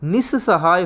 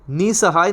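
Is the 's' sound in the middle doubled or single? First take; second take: doubled; single. First: The middle 's' sound is held and doubled. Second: The middle 's' sound is short and single. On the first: The speaker calls it right. "निस्सहाय होता है" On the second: The speaker calls it wrong. "निसहाय नहीं होता"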